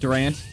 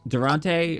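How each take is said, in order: First: The name ends without a final vowel sound. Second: The name ends with a pronounced final vowel. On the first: The speaker calls it right. "just the E is silent" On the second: The speaker calls it wrong. "or is that how you say it?"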